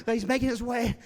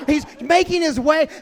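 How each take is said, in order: First: Said in the usual way. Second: Loud laughing narration; laughing loudly. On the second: Retold or imitated. First telling, loud and laughing.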